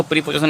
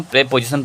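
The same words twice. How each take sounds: First: प्रीपोजिशन with a long "pree" first syllable; mispronounced preposition. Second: प्रीपोजिशन opening on "pray", not "pree"; corrected pronunciation. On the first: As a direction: say प्रीपोजिशन wrongly, opening on "pree". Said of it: "इसको प्रीपोजिशन नहीं पढ़ते दोस्तों". (प्रीपोजिशन, शुरू में लंबा "प्री" वाला गलत उच्चारण) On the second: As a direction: say प्रीपोजिशन as "pre-position" with an e vowel. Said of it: "हम प्रीपोजिशन पढ़ते". (प्रीपोजिशन को "प्रे-पोजिशन" बोलते हुए) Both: Shown as a demonstration.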